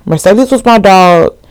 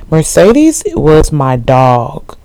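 First: Louder, punching the word was; "was" hit hard and falling at the end, like there's no arguing; emphatic insistence. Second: Slow, with the weight on Mercedes; "Mercedes" stretched out and rising, the rest slow and deliberate; drawn-out emphasis. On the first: Repeats the claim more emphatically. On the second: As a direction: lean slowly into the name Mercedes, rising. Insisting on her favourite character. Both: Real, not acted.

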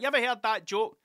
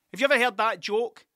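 First: Higher, keen to share a joke; excited pub-joke opener; eager joke opener. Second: Louder and higher, eager to launch a joke; excited pub-joke opener. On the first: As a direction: sell the setup with glee. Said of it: "It's like". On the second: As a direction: lean in like you're about to tell a great joke. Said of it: "And then I stopped". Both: Retold or imitated.

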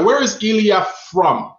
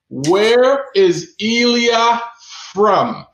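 First: Said in the usual way. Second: Slow, each word stretched, with a pause before from; slow drawn-out question. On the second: Shown as a demonstration. Host repeating the quiz question to the chat, slow and stretched. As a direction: drag out Where is Elia, then land from. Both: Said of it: "quiz host repeats question".

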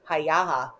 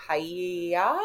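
First: Hiyaha said in three syllables, HI-ya-ha; Hiyaha, with the extra ha at the end; corrected Hiyaha. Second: Hiya said as two syllables, HI-ya; mispronounced Hiya. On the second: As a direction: say it as Hiya, not Hiyaha. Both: Real, not acted. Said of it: "How do you say it?".

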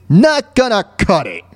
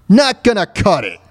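Both takes have the same delivery.

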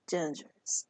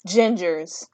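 First: Hushed breathy whisper. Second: Said in the usual way. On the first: Shown as a demonstration. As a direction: whisper it like a secret. Repeats the word in whisper.

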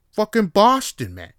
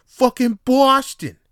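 First: Loud, high mock Boston yell; Boston accent. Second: Slow, drawn-out, even louder Boston yell; Boston accent. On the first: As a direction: bellow it like a Boston bro. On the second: Retold or imitated. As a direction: stretch it like a proud Boston bro. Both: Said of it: "proper Boston accent".

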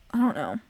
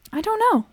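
First: Said in the usual way. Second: Much higher, louder swooping pitch. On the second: Shown as a demonstration. Testing the voice for viewers, high-pitched. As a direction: push it way up high.

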